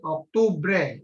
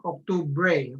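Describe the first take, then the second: First: "Octubre" with a firm, cut-off final bre; "Octubre" ending on a clean short e; short accented ending. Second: "Octubre" with the last vowel stretched to "bray"; wrong extended ending. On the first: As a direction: stress the last e of "Octubre" and stop it short. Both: Shown as a demonstration. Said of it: "It's not Octubre".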